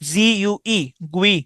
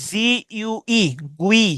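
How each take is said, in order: Both takes have the same delivery.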